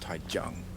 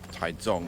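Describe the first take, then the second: First: The name is said with English pronunciation. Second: The name is said with Chinese pronunciation. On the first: The speaker calls it wrong. "not Taichung" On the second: The speaker calls it right. "the way you say them in Chinese"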